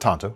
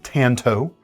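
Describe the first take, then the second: First: The first vowel is an open 'ah' sound. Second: The first vowel sounds like the 'a' in 'cat'. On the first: It is closer to the Japanese pronunciation. "I do pronounce it Tonto, ... closer to the Japanese pronunciation" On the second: It is the common English way of saying it. "not Tanto"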